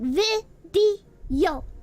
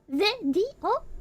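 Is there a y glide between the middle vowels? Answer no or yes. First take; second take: yes; no. First: A y sound links the two middle vowels. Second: No y sound links the two middle vowels. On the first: "I'm putting like a Y in there" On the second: "is it supposed to be video?"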